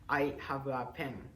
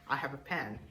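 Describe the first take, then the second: First: It is spoken with a Japanese accent. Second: It is spoken with an imitated English accent. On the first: This is how typical students say it. "which is in Japanese accent" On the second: Classmates would laugh at this. "to imitate the English accent"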